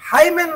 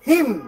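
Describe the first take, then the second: First: It is said with two syllables, ending in n. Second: It is said as one syllable, ending in m. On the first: The speaker calls it wrong. "হাইমেন না" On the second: The speaker calls it right. "উচ্চারণ কি? হিম"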